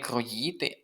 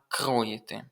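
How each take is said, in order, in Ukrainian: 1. Наголос на другому складі. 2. Наголос на першому складі. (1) "неправильний наголос стоїть у слові не кроїти" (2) "а кроїти. Наголос на перший склад"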